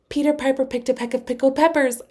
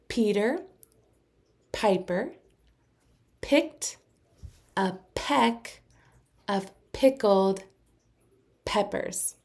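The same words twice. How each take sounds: First: It is said as fast as possible. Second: It is said slowly, word by word.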